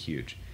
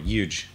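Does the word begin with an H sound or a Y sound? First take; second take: H sound; Y sound. First: The word begins with an H sound. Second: The word begins with a Y sound.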